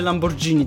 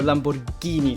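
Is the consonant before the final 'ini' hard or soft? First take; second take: soft; hard. First: The g before the final syllable sounds soft. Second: The g before the final syllable sounds hard. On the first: The speaker calls it wrong. "na pewno nie mówicie Lamborghini" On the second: The speaker calls it right. "tylko Lamborghini, tak jak niopki"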